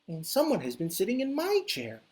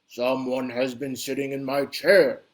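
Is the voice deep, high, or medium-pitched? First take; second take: medium-pitched; deep. First: A medium-sized Mama Bear voice. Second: A big, deep, bellowing Papa Bear voice.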